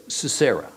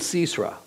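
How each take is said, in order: First: "Sisera" stressed on the middle syllable, si-SEH-ra; alternative pronunciation. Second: "Sisera" stressed on the first syllable, SEES-ra; first pronunciation variant. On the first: Teacher offering another way to say the name, "Sisera" as si-SEH-ra. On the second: Teacher naming the man Yael killed, "Sisera" as SEES-ra. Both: Shown as a demonstration. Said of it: "or Sisera".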